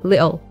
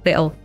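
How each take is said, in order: First: The t in the middle is a glottal stop. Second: The same.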